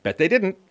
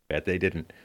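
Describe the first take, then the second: First: High mocking sarcasm, loud; sarcastic high. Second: Low, soft, dry deadpan. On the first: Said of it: "repeated flat after". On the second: Pretend. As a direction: mutter it back flatly and low. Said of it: "repeated high before".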